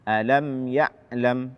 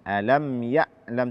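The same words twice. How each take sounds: No difference in how they are said.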